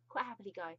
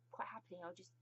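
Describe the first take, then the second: First: Said in the usual way. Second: Softer conspiratorial whisper; hushed, giggly confession; whispered aside. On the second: Real, not acted. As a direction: whisper it like a guilty secret. Whispered aside about the Queen.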